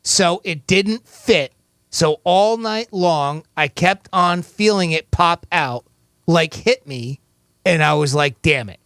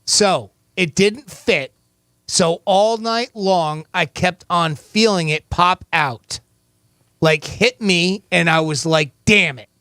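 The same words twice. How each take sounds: First: Slow, careful reread; slow read again. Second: Slow, deliberate quote reading. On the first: Host rereads the quote slowly to the caller. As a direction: spell it out slowly one more time. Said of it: "I'll read it again". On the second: Host reads the quote slowly to the caller. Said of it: "here is your quote". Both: Shown as a demonstration.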